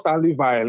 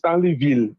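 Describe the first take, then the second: First: The last syllable rhymes with English 'mile'. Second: The last syllable sounds like French 'veel'. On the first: The speaker calls it wrong. "it's not Stanley Vile" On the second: The speaker calls it right. "it's Stanley Ville"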